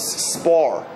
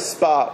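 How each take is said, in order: First: The word ends with a clear R sound. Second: The word sounds like spa, with no R. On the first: It means sparring in a fight. The speaker calls it right. "My kids always say, Abba, it's spar" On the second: It sounds like going to a sauna. The speaker calls it wrong. "I say spar"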